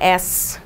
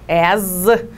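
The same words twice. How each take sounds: First: The word ends with a hissing s sound. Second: The word ends with a buzzing z sound. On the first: The speaker calls it wrong. "Não é as" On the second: The speaker calls it right. "com som de zezinho"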